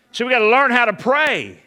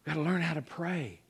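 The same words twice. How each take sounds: First: Loud. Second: Quiet. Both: Shown as a demonstration.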